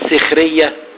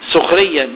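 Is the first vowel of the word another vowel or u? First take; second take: another vowel; u. First: The first vowel is not an u sound. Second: The first vowel is an u sound. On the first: People mock each other. The speaker calls it wrong. "مش سخرية" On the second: People put each other to work. The speaker calls it right. "سخرية بالضم"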